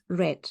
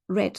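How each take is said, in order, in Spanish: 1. La palabra suena como el color 'red'. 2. La palabra suena como el color 'red'.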